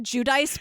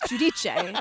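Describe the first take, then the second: First: The surname is said in a non-Italian way. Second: The surname is said the Italian way. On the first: This is how the name's owner says it. The speaker calls it wrong. "She calls herself Teresa Giudice" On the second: This is how the name is said in Italian. The speaker calls it right. "That's how you say it, Italian"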